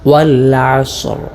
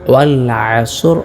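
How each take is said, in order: First: The s sound hisses and the r is clear. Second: The s sound ends with a small bounce. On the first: The speaker calls it right. "ഇങ്ങനെ റാഇനെ വ്യക്തമാക്കുകയും ചെയ്യണം" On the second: The speaker calls it wrong. "സ്വാദിൽ ഒരൽപ്പം കൽക്കല കൊടുത്തുകൊണ്ട്"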